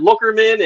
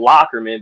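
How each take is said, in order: First: The first syllable sounds like 'look'. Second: The first syllable sounds like 'lock'. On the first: The speaker is new to the area. The speaker calls it wrong. "but it's spelled Lookerman. They're like, yeah, we're at Lookerman" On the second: The speaker is a local. The speaker calls it right. "we have a street called Lockerman"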